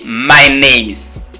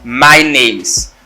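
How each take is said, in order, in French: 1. Le mot 'is' se contracte avec 'name'. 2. Le mot 'is' se contracte avec 'name'.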